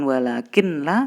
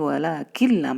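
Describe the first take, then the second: First: The n is pronounced separately before the l. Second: The n merges completely into the following l. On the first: The speaker calls it wrong. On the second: The speaker calls it right. "masuk ya"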